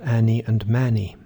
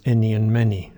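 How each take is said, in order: First: "Annie and Manny" with the a of trap; the wrong trap vowel. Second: "any" and "many" with the e of dress, not Annie; careful vowels. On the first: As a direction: say them with a flat a sound. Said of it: "It's not". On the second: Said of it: "Listen carefully to those last two words". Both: Shown as a demonstration.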